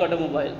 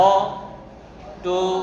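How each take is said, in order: First: Said in the usual way. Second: "automobile" in four slow separate beats; broken into syllables. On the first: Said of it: "এই যে ভেঙে ভেঙে". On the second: Shown as a demonstration. Teacher showing a polysyllable in four pieces, broken into syllables. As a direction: pause after অ, টো and মো. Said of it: "এই যে ভেঙে ভেঙে চারবার হয়ে গেল".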